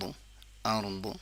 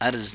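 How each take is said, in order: First: The final consonant is a heavy d-like sound. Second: The final consonant is a z sound. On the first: The speaker calls it right. "अर्द है" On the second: The speaker calls it wrong. "अर्ज नहीं करेंगे"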